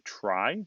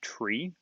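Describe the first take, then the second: First: The vowel is an 'eye' sound. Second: The vowel is a long 'ee' sound. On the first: "Some people pronounce it a try" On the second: "I pronounce it tree"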